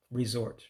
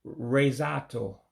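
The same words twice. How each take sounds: First: Said in the usual way. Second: Slow Resato, resort in an Igbo accent. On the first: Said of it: "just like saying it in English". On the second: Shown as a demonstration. Teacher showing resort as Igbo, slow Igbo-accented Resato. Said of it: "just like saying it in English with an accent".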